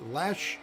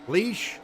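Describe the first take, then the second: First: Lesh with a short open vowel, questioning rise; trying a pronunciation. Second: Leash with a long "ee", rising high and louder; alternative pronunciation. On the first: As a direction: say Lesh to rhyme with "mesh", as a question. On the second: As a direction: say Leash like a dog's leash, as a question. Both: Real, not acted.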